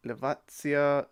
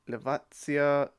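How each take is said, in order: First: The middle consonant is a 'ts' sound. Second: The middle consonant is a 'ts' sound.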